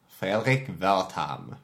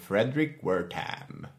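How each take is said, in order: First: The name is pronounced the German way. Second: The name is pronounced the English way.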